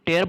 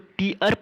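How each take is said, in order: First: The vowel sounds like the word 'air'. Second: The vowel sounds like the word 'ear'. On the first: It is a verb meaning to rip. "टेयर verb होगा तो फाड़ना meaning देगा" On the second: It is a noun meaning drops from the eyes. "इसको टीयर अगर पढ़ेगा तो आंसू होता है"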